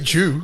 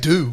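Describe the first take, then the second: First: The word begins with a 'j' sound. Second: The word begins with a plain 'd' sound. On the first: The speaker calls it wrong. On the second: The speaker calls it right. "you got to say do"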